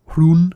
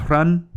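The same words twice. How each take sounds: First: Hrun said with a long "oo", like "hroon"; long-vowel pronunciation. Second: Hrun said with a short "uh" vowel, like "run"; short-vowel pronunciation. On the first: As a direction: say Hrun to rhyme with "moon", h before the r. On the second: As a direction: say Hrun to rhyme with "sun". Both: Shown as a demonstration. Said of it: "I've heard it pronounced".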